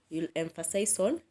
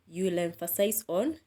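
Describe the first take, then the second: No difference in how they are said.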